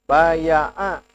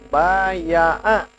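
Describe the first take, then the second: Both takes have the same delivery.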